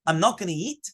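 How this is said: It is said as a question, rising.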